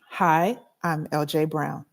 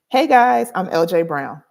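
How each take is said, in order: First: It is said flatly, with little energy. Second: It is said with energy and confidence.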